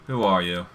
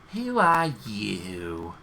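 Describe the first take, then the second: First: It is said in a plain voice. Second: It is said in an obnoxious mocking voice.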